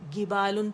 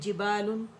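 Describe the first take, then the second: First: The word begins with a hard g sound. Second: The word begins with a j sound. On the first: The speaker calls it wrong. "उसकी जगह में गिबालुन पढ़ लिया" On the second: The speaker calls it right. "फिर जिबालुन"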